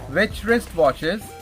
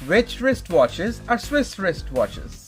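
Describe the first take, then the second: First: The sentence is spoken at a fast pace. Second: The sentence is spoken at a slow pace. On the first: "try again fast" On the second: "Slowly first"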